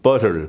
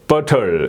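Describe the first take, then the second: First: The word is said quickly and smoothly. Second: The word is said slowly, syllable by syllable. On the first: "이걸 좀 빨리 하면" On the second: "butter 이렇게 발음되지만"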